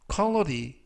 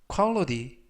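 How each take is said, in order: No difference in how they are said.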